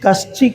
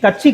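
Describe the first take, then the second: First: The middle cluster is a 'sh' then 'ch'. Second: The middle cluster is a 't' then 'ch'. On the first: The speaker calls it right. "கஷ்சி கஷ்சி" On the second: The speaker calls it wrong. "கட்சி கிடையாது"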